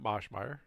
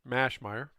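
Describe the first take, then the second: First: The first syllable does not sound like 'mash'. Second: The first syllable sounds like 'mash'. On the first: The speaker calls it wrong. "not Moschmeyer" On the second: The speaker calls it right. "like the T V show MASH"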